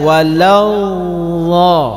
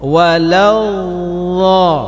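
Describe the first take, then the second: The two takes are said the same way.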